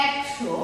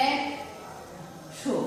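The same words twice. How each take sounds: First: Said in the usual way. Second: একশো whispered very slowly as e-k-sho; একশো ফিসফিস করে ধীরে উচ্চারণ; slow whispered pronunciation. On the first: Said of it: "যদি বলি". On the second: Shown as a demonstration. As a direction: draw একশো out in a soft whisper. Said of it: "প্রথমে দেখি".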